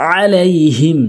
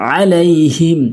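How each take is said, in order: No difference in how they are said.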